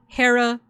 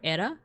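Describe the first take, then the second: First: The name starts with an h sound. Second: The name starts with a vowel, no h. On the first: This is how it is said in modern English. "if you speak American English" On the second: This is how it was likely said in ancient Greek. "In Greek, her name probably would have been pronounced something like Ira or Era"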